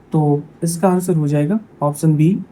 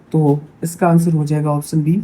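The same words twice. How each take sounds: The two takes are said the same way.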